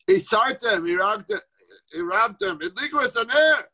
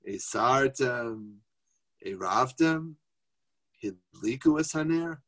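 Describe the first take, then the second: First: The words are said in a rushed, agitated voice. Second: The words are said in a calm, gentle voice. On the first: The household is being pressured in a rush. The speaker calls it wrong. "That's not how we're supposed to have an Erev Shabbos" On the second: The household is being reminded peacefully. The speaker calls it right. "He's got to say them calmly, benachas"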